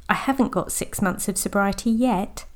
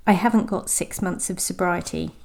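First: A hopeful lift on yet. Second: A bit sad. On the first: Coach showing how yet changes the line. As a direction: let yet sound full of hope. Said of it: "Sounds hopeful". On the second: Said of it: "Sounds a bit sad". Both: Shown as a demonstration.

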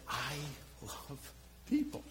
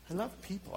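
First: Softly breathed, almost whispered; hushed. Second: Said in the usual way. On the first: Real, not acted. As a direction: drop to a near-whisper on love people. Confessional hush mid-sermon.

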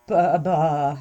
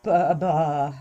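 First: Starstruck, can't form words; speechless stammer. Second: Dazed, lost for words; speechless stammer. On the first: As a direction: stammer in awe. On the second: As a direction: stammer again, stunned. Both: Acted. Had been rendered speechless.

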